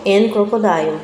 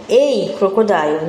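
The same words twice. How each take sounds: First: "an crocodile" with an, wrongly, before the consonant; wrong article. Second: "a crocodile" with a plain short a before the consonant; correct article. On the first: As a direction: show the mistake "an crocodile". ("an crocodile" dito com an, como exemplo errado) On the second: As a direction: say "a crocodile", not "an". ("a crocodile" com artigo a simples, correto) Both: Shown as a demonstration. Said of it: "não an crocodile".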